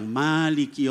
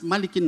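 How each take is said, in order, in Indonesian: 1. Vokal pertama dari Malik dibaca panjang. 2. Vokal pertama dari Malik dibaca pendek.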